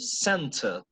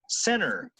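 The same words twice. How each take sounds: First: British accent, with a strong t sound. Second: American accent, with a softened t sound. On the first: "for a British person, center. ... la T está sonando un montón" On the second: "But for an American person, center"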